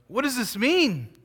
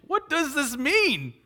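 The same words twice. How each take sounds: First: Higher, puzzled question; perplexed crowd. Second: Much higher, slow, baffled question; perplexed crowd. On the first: Crowd at Pentecost asking each other, higher and puzzled. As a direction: wonder aloud like the amazed crowd. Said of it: "amazed and perplexed, saying". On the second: Amazed crowd at Pentecost asking each other, much higher and slower. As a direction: stretch the question out in bewilderment. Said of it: "Fair question". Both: Retold or imitated.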